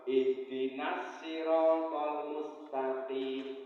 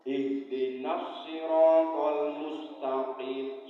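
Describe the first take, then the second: First: Every s sound is the light plain sin. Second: Every s sound is the heavy emphatic sad. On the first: "sin semua" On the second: "son kabeh"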